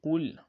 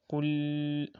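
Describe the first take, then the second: First: Said in the usual way. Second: QUL with the final L held long on a level note; drawn-out L. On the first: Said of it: "So you just say qul". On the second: Shown as a demonstration. Teacher showing students the mistake, over-held L in "Qul". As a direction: stretch the L at the end of "Qul". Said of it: "Do not do, do not say".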